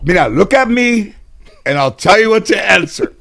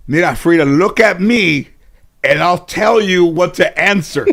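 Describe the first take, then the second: First: Lightly voiced grandma, higher and a little louder; grandma insisting in court, half-joking; coaching grandmother again. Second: A hint of grandma, higher and a little louder, with a laugh; coaching grandmother. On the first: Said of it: "So she goes in court". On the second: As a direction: lightly voice grandma whispering the answer to Frida. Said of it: "My grandmother said".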